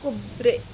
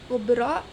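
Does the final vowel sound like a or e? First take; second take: e; a. First: The final vowel is fronted toward e. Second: The final vowel is a plain open a.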